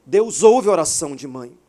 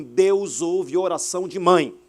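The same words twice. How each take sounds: First: Deus ouve oração de mãe, much louder; full-force preacher's cry; preaching shout. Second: Said in the usual way. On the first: Real, not acted. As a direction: proclaim it to the whole church. Preacher repeats key line.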